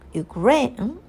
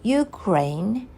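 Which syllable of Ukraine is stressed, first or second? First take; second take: second; first. First: The stress is on the second syllable. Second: The stress is on the first syllable. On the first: "stress on the second syllable, like you, you, Ukraine" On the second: "place a stress on the first syllable, like Ukraine"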